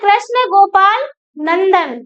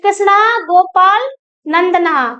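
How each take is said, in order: First: The last word ends on a bare consonant. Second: The last word ends with a final 'a' vowel. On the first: The speaker calls it wrong. "मैंने हिंदी बोल दी" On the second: The speaker calls it right. "थोड़ा सा संस्कृत में बोले ऐसे"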